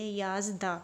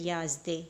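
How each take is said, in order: First: The word ends with an open 'a' vowel. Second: The word ends with an 'e' vowel. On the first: The speaker calls it right. "इसको अलिफ की तरफ उस पर पढ़ेंगे" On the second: The speaker calls it wrong. "ना कि याज़दे"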